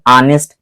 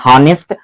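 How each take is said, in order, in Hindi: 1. शब्द स्वर से शुरू होता है, h नहीं है। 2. शब्द की शुरुआत हल्की साँस वाली h ध्वनि से होती है। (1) "जबड़े के अंदर से आवाज उत्पन्न हो रही" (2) "हवा यहां से डायरेक्ट निकल रही"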